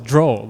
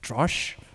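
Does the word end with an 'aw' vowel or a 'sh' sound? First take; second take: aw vowel; sh sound. First: The word ends with an open 'aw' vowel. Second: The word ends with a 'sh' sound. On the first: The speaker calls it right. "the word was draw. You know, with the W" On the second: The speaker calls it wrong. "The guy read as drosh"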